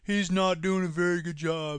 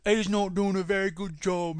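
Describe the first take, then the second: First: It is said in a plain American accent. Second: It is said in a put-on British accent.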